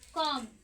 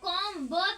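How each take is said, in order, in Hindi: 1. आख़िर में b की कोई आवाज़ नहीं बोली जाती। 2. आख़िर में b की आवाज़ बोली जाती है। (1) "ब है वो साइलेंट" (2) "इसको हम लोग कॉम ब तो नहीं पढ़ रहे"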